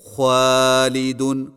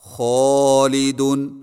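First: The long A vowel sounds light and thin. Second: The long A vowel sounds heavy and full. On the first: The speaker calls it wrong. "الف کو بری کر کے پڑھنا" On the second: The speaker calls it right. "موٹے الف کی مشق کیجیے"

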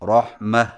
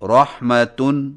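First: The word ends with an 'h' sound. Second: The word ends with a 'tan' sound. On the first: The reader stops on this word. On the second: The reading continues without a stop.

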